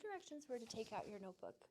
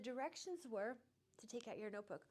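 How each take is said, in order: First: The tone is short and snippy. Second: The tone is calm and even. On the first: The speaker calls it wrong. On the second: The speaker calls it right.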